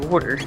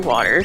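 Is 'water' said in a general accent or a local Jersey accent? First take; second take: Jersey; general. First: It is said in a local Jersey accent. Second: It is said in a more general accent. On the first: Many local people say it this way. "a lot of people around here say water" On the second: This is how the speaker taught himself to say it. "I say water"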